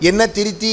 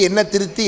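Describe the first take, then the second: No difference in how they are said.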